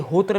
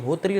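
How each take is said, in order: First: "होत्र" ending on -tra, without the ee; variant pronunciation. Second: "होत्री" ending on a long -tree; variant pronunciation. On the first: Teacher showing students one written form, variant "होत्र" ending in -tra. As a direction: say "होत्र" with a short final vowel, hotra. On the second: Teacher showing students the other written form, variant "होत्री" ending in ee. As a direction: say "होत्री" with a final ee sound, hotree. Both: Shown as a demonstration. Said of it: "अपने हिसाब से आप प्रोनाउंशिएट कर सकते हैं".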